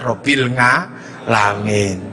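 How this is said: The second word begins with an 'ng' sound. The speaker calls it wrong.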